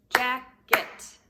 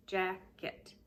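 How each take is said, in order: First: "Jacket" loud, both syllables punched apart as JACK-ET; syllables clapped out. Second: Said in the usual way. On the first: Shown as a demonstration. Teacher clapping the syllables of "Jacket" for kids, loud and punched. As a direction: beat out each syllable of "Jacket" loudly. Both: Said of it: "Let's see how many syllables in jacket".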